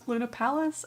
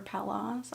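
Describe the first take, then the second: First: "Palace" ending in a short "-us"; first pronunciation. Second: "Palace" ending in an open "-ahs"; alternative pronunciation. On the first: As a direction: say "Palace" like the English word, PAL-us. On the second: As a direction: say "Palace" as PAL-ahs, questioning. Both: Shown as a demonstration. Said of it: "not sure how to pronounce that".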